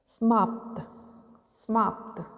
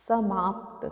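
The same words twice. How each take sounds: First: समाप्त with a clipped weak प; wrong stress. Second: समाप्त with a full प; correct reading. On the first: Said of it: "प का उच्चारण कम कर रहे हैं". (समाप्त में प कमज़ोर, गलत उच्चारण) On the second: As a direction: give the प in समाप्त its full weight. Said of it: "जबकि स का पूरा". (समाप्त में प पूरा, शुद्ध) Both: Shown as a demonstration.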